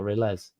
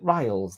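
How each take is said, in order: First: "Riles" said as "rill-ez", two syllables; short i in "Riles", then an ez ending; alternative pronunciation. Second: "Riles" as one word rhyming with miles; preferred pronunciation. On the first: Offering viewer another reading, "Riles" as rill-ez. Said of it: "Is it Riles that or Riles". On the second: Checking viewer's name, "Riles" said as ryelz. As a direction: give "Riles" a long eye vowel. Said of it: "I wanna say Riles". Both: Shown as a demonstration.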